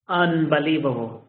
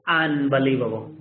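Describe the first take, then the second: Both takes have the same delivery.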